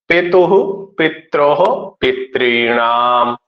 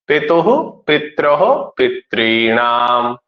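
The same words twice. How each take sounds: The two takes are said the same way.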